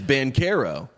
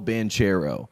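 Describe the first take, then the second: First: The name is said the Italian way. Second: The name is said the American way.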